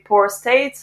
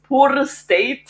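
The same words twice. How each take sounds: First: It is said in a plain standard English accent. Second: It is said in a singsong Scottish accent.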